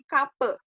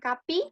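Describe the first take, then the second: First: The word ends in a dull, unrounded vowel. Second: The word ends in a clear 'ee' vowel. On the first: The speaker calls it right. "tapi kape. Nggak ada titiknya berarti e" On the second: The speaker calls it wrong. "Bukan kapi"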